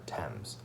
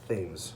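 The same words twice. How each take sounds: First: The name is said the British way. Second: The name is said the American way. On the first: This is how the river in England is named. "If you go to England, it's the River Thames" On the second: This is how the street in Newport is named. "But in Newport, it's Thames Street"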